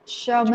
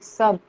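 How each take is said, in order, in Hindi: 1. यह शब्द sh ध्वनि से शुरू होता है। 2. यह शब्द s ध्वनि से शुरू होता है। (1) "शब नाही"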